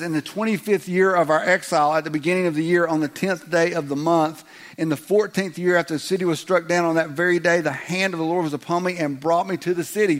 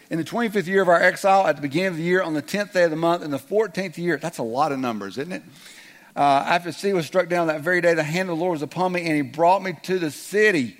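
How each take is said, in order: First: Higher, louder, rattled-off recital; droning scripture reading. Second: Fast, higher rattled reading; rushed retry. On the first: Pastor reading Ezekiel to the congregation, mock droning recital. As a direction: read it like a rote chore. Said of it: "Did you get that?". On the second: Pastor retrying the Ezekiel reading, fast and rushed. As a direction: race through the numbers. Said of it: "Let's try that again". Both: Pretend.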